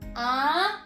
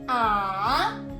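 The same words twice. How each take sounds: First: It is said with the second tone. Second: It is said with the third tone.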